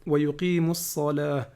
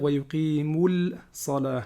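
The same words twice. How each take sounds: First: ويقيموا الصلاة with the lam silent, run into the sad; solar lam dropped. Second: ويقيموا الصلاة with the lam wrongly said before the sad; wrong lam sounded. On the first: Teacher showing the correct solar letter, lam silent. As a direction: swallow the lam, say wayuqimu ssala. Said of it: "Exemple ici". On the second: Teacher showing the wrong way, lam pronounced. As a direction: show the mistake, voice the lam. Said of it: "On va pas dire". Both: Shown as a demonstration.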